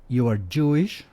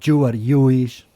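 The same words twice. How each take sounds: First: It is said with native English consonants. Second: It is said with a Spanish-speaker's consonant. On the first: This is what the speaker intends to say. The speaker calls it right. "en lugar de decir" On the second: A Spanish speaker confuses the two sounds. The speaker calls it wrong. "un mexicano intenta hablar inglés"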